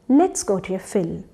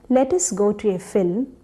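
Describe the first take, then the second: First: It begins with one contracted word, let's. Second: It begins with two full words, let us. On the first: The speaker calls it right. "Doesn't that sound much better?" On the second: The speaker calls it wrong. "instead of let us go to a film"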